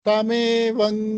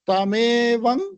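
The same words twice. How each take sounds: The two takes are said the same way.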